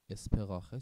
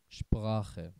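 First: The word begins with a plain s sound. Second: The word begins with an sh sound. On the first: The speaker calls it wrong. "اسپراخه چرا نشد؟" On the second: The speaker calls it right. "ترکیب مهم اس و پ کنار هم دیگه اومده"

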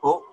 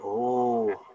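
First: The vowel is short and clipped. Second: The vowel is drawn out long. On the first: The speaker calls it wrong. "Instead of just oh" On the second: The speaker calls it right. "so that would be elongated"

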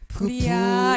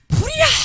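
First: It is said quietly and weakly. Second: It is shouted loudly and forcefully. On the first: People will not realize they must escape. The speaker calls it wrong. "이렇게 말할 때, 불이야. 그 이렇게 하면 그렇죠, 사람들이 도망가지를 못하잖아" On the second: People will hear it and escape. The speaker calls it right. "이렇게 크를 막 크게 말해주면요. 도망가잖아"

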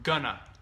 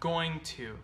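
First: The words are reduced and run together. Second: The words are said fully and separately. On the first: "the shortened version, which is spoken very often" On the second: "here we have going to"

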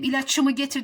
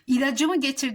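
First: The word keeps a hard ç before the ending. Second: The word has a soft c before the ending. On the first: The speaker calls it wrong. "ne kadar saçma oluyor" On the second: The speaker calls it right. "C'ye yumuşattım"

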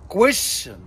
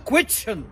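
First: The middle consonant is an 'sh' sound. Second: The middle consonant is a 'ch' sound. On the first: The speaker calls it right. "عرفنا بعد كده يا اولاد لما قرعينا ان هي كويشن" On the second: The speaker calls it wrong. "بنقول كويتشن غلط"

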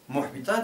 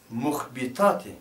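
First: The word has three syllables, without an extra vowel. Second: The word has four syllables, with an extra vowel. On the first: The speaker calls it right. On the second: The speaker calls it wrong.

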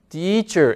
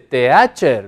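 First: The first vowel is an ee sound. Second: The first vowel is not an ee sound. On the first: The speaker calls it right. "Se dice teacher. Es como que estas dos letras suenan a la nuestra I" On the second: The speaker calls it wrong. "no se dice teacher"

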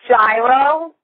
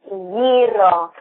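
First: The word has the American English pronunciation. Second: The word has the Greek pronunciation. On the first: "The American version is Gyro" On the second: "in Greek it's Gyro"

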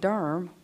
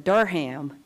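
First: It is said the local North Carolina way. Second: It is said the way outsiders say it. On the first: The place is named as locals name it. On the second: The place is named as non-locals name it.

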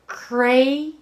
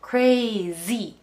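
First: The middle consonant is a hissing s sound. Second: The middle consonant is a buzzing z sound. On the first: The speaker calls it wrong. "crazy ではなくて" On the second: The speaker calls it right. "z の音crazy、舌をちょっと前に出し気味でズーって濁った音"

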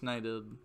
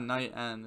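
First: The word ends with a short 'ed' sound. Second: The word ends with a clear 'end' sound. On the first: The speaker calls it right. "It's Knighted" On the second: The speaker calls it wrong. "It's not Knight End"

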